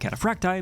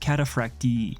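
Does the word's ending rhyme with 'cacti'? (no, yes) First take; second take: yes; no. First: The ending rhymes with 'cacti'. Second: The ending does not rhyme with 'cacti'. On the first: "it matches with pronunciation of more common words like cacti" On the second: "the technically correct way of pronouncing this word"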